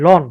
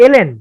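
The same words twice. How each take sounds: First: "লন" said as one quick syllable, lon, with the letters run together; wrong pronunciation lon. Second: "এলএন" spelled out as two letters, el then en; correct pronunciation el-en. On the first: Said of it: "এরকম কিছু একটা উচ্চারণ আমরা করি". (ভুল উচ্চারণ, "লন" এক শব্দে) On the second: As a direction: say each letter of "এলএন" clearly, el, en. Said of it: "Actually এটা উচ্চারণ লন না". (সঠিক উচ্চারণ, "এলএন" দুই অক্ষর আলাদা করে) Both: Shown as a demonstration.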